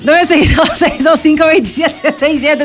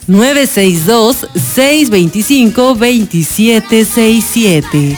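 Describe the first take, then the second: First: It is said in a more cheerful tone. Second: It is said in a plain, neutral tone.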